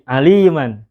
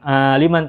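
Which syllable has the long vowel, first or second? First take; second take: second; first. First: The second syllable's vowel is drawn out long. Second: The first syllable's vowel is drawn out long. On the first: The speaker calls it right. "Li yang panjang bukan a" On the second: The speaker calls it wrong. "bukan aliman"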